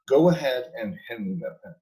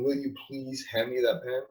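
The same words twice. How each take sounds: First: Firm command, falling at the end; tell, don't ask. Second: Soft, polite request for the pen; polite asking. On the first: Demoing the confident way to command, firm. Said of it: "You're saying". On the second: Demoing the weak way of asking, soft and polite. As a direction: ask meekly, like a favor. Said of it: "You're not saying". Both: Shown as a demonstration.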